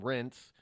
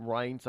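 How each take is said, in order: First: Rince said like "rents"; "Rince", no eye sound; pronounced with short vowel. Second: Reince said with a long i; "Reince" with an eye vowel; pronounced like "Rines". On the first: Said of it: "I've heard him pe-, people call him". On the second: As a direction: say Reince to rhyme with "pints". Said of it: "I've heard people call him". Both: Shown as a demonstration.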